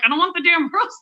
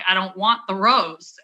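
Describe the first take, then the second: First: Higher, insistent refusal breaking into a laugh; retold annoyed refusal with a laugh; exasperated laughing refusal. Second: Said in the usual way. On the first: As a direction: push the rose away, half laughing. Repeated refusal, rose forced on her.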